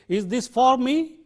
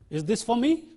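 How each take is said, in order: First: The word for has a full vowel. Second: The word for has a reduced vowel. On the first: The speaker calls it wrong. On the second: The speaker calls it right.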